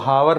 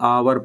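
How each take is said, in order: First: The word begins with an h sound. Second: The word begins with a vowel sound. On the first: The speaker calls it wrong. "इसको हावर नहीं पढ़ेंगे" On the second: The speaker calls it right. "आवर पढ़ेंगे"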